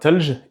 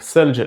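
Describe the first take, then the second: First: The word begins with a plain t sound. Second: The word begins with a th sound. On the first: This is the Moroccan and Algerian form. "Au Maroc et en Algérie, on les prononce exactement comme te et de" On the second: This is the classical form. "les deux sons th et the qui sont sifflés entre les dents"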